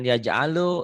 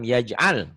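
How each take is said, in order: First: The word ends with an added vowel after l. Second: The word ends on a bare l sound. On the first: The speaker calls it wrong. "Jangan yaj'alu, itu kan lam, lam mati" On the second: The speaker calls it right. "lam mati"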